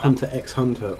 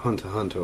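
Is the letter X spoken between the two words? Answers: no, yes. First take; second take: yes; no. First: The letter X is spoken between the words. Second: No X is spoken between the words. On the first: The speaker calls it wrong. "It's not" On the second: The speaker calls it right. "It's just you know"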